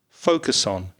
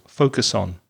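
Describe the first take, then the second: No difference in how they are said.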